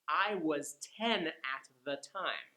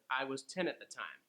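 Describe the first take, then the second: First: The sentence is said at a slow pace. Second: The sentence is said at the quickest pace.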